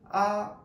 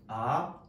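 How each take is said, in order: First: The syllable is said with the first tone. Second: The syllable is said with the second tone. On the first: "일성" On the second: "이성"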